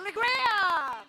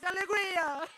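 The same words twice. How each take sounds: First: It is said with an American accent. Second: It is said with a plain Brazilian accent.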